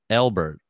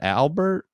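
First: The first vowel sounds like 'el'. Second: The first vowel sounds like 'al'. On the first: This imitates how a Midwestern speaker says it. The speaker calls it wrong. "spell my name E-L-B-E-R-T because you always say it like that" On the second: This is the name's own pronunciation. The speaker calls it right. "It's just Albert"

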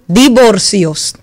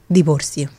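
First: It is said in a cheerful tone. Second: It is said in a sad tone.

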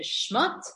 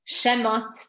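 First: The sh runs straight into m, no vowel. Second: A short vowel is heard after the sh. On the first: The speaker calls it wrong. "not Sefer Shmot" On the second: The speaker calls it right. "the second book of Torah is Sefer Shemot"

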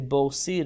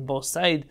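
First: The second word has an 'ee' vowel. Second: The second word has an 'ai' vowel. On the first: "many of the books say Bor Sid or Bor Said, but really that's not correct" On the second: "many of the books say Bor Sid or Bor Said, but really that's not correct"

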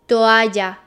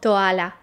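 First: The double L sounds like a Y. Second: The double L sounds like an L. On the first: The speaker calls it right. "when you have two L's together, it's pronounced J" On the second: The speaker calls it wrong. "not toala"

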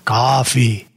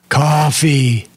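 First: It is said at the quietest level. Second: It is said louder than before.

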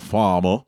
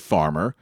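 First: It is said in a Southern US accent. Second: It is said in a standard American accent. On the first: "Down south might go farmer" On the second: "We say farmer"

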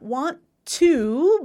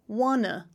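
First: Both words are said fully and separately. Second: The two words blend into one reduced word. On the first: "I've got want to" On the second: "I'm going to change it to want to, wanna"

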